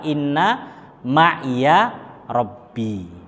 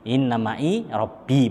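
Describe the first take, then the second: First: An extra 'ya' syllable follows 'ma'i'. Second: 'Ma'i' ends without an extra syllable. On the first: This is how the Quran recitation reads it. "kenapa dibaca ma'i kalau enggak ma'iya?" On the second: This reading is allowed outside the recitation. "boleh, bener, nggak salah"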